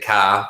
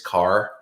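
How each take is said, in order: First: The word ends without an R sound. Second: The word ends with a clear R sound.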